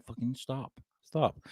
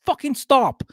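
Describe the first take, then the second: First: Very soft, almost under the breath; quoted quiet command. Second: High-pitched, emphatic mock order; exasperated command. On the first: Retold or imitated. Host quoting himself as [name] said, hushed little command. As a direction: repeat the order in a tiny voice. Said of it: "[name] said". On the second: Host telling people to stop littering space, high exasperated command.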